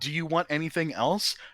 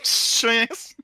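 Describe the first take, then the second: First: Each word is said clearly and separately. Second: All the words blur together into one word.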